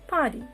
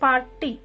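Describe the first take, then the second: First: The R sound is left silent. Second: The R sound is pronounced. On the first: The speaker calls it right. "It is party. Party. R is a silent letter" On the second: The speaker calls it wrong. "It is not party"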